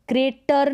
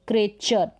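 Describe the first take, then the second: First: क्रेटर with a hard T, "cray-tar"; wrong T pronunciation. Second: क्रेचर as "cray-char"; T read as CH. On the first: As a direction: misread creature as क्रेटर. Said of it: "नहीं पढ़ेंगे". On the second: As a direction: correct it to क्रेचर with a "ch". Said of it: "च का sound आएगा टी के लिए". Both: Shown as a demonstration.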